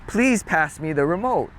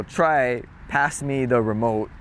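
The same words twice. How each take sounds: First: Said in the usual way. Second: Slow demo. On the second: Shown as a demonstration.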